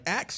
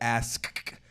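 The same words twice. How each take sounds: First: The s and k sounds are swapped: 'aks'. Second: The s comes before the k: 'ask'. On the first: "that axe was originally okay to say" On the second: "so now I have to be like ask"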